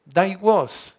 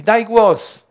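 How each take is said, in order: First: Said in the usual way. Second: Loud high dog command, daj punched. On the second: Retold or imitated. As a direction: call to the dog to speak. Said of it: "do pieska się tak mówi".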